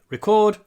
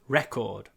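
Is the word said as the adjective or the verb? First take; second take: verb; adjective. First: It is said the way the verb sounds. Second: It is said the way the adjective sounds. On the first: It names the action of recording. "the verb to record" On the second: It describes something as a record. "the adjective record"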